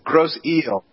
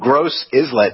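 First: The name ends with the sound 'eel'. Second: The name ends with the sound 'islet'. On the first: The speaker calls it right. "but that's what they pronounce it as eel" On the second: The speaker calls it wrong. "I thought it was I-S-L-E-T"

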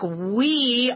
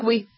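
First: The word is said slowly with a long vowel. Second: The word is said quickly with a short vowel. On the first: This is how Americans say it. "if we say the word we say it slowly. We elongate the E" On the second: This is how the French say it. "It's very fast"

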